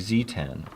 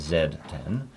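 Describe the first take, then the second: First: The letter is pronounced zee. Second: The letter is pronounced zed. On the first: This is how Americans say it. "in America, we don't say Z, we say Z" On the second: This is how Canadians say it. "my Canadian friends call it a Z ten"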